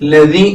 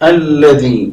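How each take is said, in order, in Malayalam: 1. ഈ വാക്ക് നേരിട്ട് l എന്ന അക്ഷരത്തിൽ ആരംഭിക്കുന്നു. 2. ഈ വാക്ക് a എന്ന സ്വരാക്ഷരത്തിൽ ആരംഭിക്കുന്നു. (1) "ലതി എന്ന് വായിച്ചാൽ പോരാ" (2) "അല്ലതി എന്ന് തന്നെയാണ്"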